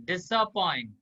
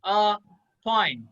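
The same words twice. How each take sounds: First: Said in the usual way. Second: Disappoint in three slow, separate pieces; syllable by syllable. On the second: Shown as a demonstration. Teacher showing the class how to pronounce it, syllable by syllable. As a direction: split Disappoint into dis, a, point with clear gaps. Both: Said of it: "इसको pronounce हम कैसे करेंगे".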